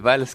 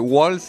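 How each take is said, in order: First: The name starts with a v sound. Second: The name starts with a w sound. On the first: This is how the name is normally said. "c'est valse comme la danse" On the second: Some people say the name this way. "on m'a déjà fait waltz et ça change"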